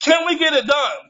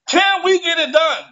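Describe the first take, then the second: First: Said in the usual way. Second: Higher and pressing; "Can we get it done" asked again higher with weight on "we"; pleading repeat. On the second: Real, not acted. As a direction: push the plea harder. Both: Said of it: "repeated plea".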